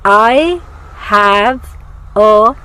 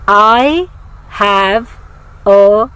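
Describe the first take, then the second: No difference in how they are said.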